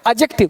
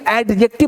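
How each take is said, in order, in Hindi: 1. 'd' की आवाज़ silent है। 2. 'd' की आवाज़ साफ़ बोली जाती है। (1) "डी नहीं पढ़ना है" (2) "एडजेक्टिव मत पढ़ना"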